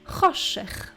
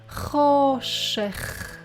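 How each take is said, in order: First: The word is said faster. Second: The word is said slowly. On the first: "And now a bit faster" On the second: "Let's say it slowly"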